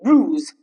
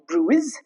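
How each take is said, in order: First: The I is silent, with a long U. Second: The I is sounded after the U. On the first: The speaker calls it right. "the letter I goes silent" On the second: The speaker calls it wrong. "not bruise. That's wrong"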